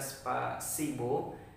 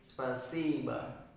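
First: The final vowel is a full 'o' sound. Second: The final vowel is reduced to an 'a' sound. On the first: This is how the spelling would be read literally. The speaker calls it wrong. "terkesan seperti membaca spasibo" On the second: This is how the word is really spoken. The speaker calls it right. "seperti spasiba, jadi harus ditekan ya"

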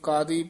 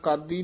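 First: The middle consonant is pronounced softly. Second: The middle consonant is pronounced hard. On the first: The speaker calls it right. "ਇਹ ਕਾਦੀ ਪੋਲਾ ਹੀ ਬੋਲਣਾ" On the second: The speaker calls it wrong. "ਕਾਦੀ ਨਹੀਂ ਕਹਿਣਾ"

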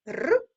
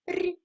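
First: The consonant is hard, not palatalized. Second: The consonant is soft, palatalized.

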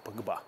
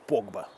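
First: The stress is on the last syllable. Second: The stress is on the first syllable. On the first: The speaker calls it right. "как его надо называть" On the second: The speaker calls it wrong. "Они никогда не ставят ударение на последний слог"

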